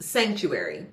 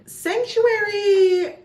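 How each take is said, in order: First: Said in the usual way. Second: Much higher, louder, slow and drawn out; dramatic title call. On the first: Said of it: "title said plainly". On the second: Acted. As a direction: announce the title like a grand reveal. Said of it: "title sung out dramatically".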